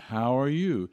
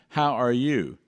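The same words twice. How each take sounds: First: The voice is relaxed, at normal speech level. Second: The voice is hard, pushed and squeezed. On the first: The speaker calls it right. "We say" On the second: The speaker calls it wrong. "We don't say"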